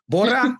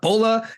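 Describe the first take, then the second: First: The middle consonant is an R sound. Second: The middle consonant is an L sound. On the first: The speaker calls it right. "Bora, B O R R A" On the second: The speaker calls it wrong. "not Bola"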